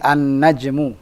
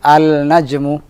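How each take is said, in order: First: The l merges into a doubled n sound. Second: A clear l is heard before the n. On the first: The speaker calls it right. "lamnya masuk ke huruf nun" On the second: The speaker calls it wrong. "bukan al-najmu"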